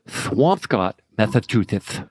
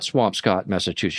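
First: The s sounds are pronounced with a lisp. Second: The s sounds are pronounced clearly, without a lisp. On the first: "She said she was from" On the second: "the way that she said it was not"

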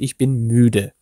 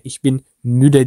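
First: The ü vowel is stretched out long. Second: The ü vowel is short and not stretched. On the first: The speaker calls it right. "uzatarak okursunuz" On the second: The speaker calls it wrong. "değil"

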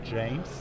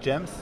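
First: The vowel is a long 'ay' sound. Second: The vowel is a short 'eh' sound. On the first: The speaker calls it right. "I have to think about Rain, and then I said James" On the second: The speaker calls it wrong.

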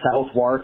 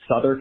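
First: The W in the middle is pronounced. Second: The W in the middle is silent. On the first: The speaker calls it wrong. "look like" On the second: The speaker calls it right. "which are pronounced"

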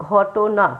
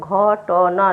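No difference in how they are said.

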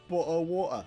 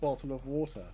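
First: It is said in a British accent. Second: It is said in an American accent. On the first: "what they say in Britain" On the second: "what we say in America"

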